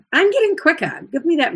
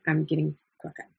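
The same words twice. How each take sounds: First: Higher and louder, a cheeky brag about being quicker; bright playful boast, up high. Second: Fast and softer, a muttered repeat of the brag; quick aside. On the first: Teacher boasts playfully about speed. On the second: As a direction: toss it off quickly under your breath. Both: Real, not acted.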